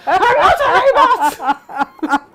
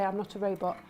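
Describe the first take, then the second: First: Slow, high, loud shout with a laugh; exasperated shout. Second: Said in the usual way. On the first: Retold or imitated. Prank victim yells at the coffee machine, slow and loud. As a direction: yell it at the stubborn machine. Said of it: "And he was just like". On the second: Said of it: "when he'd say".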